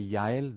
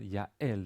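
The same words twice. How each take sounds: First: The two vowels glide together without a break. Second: A glottal catch separates the two vowels. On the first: "create a, a diphthong where they where there's no stop in between" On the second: "there's a stop between"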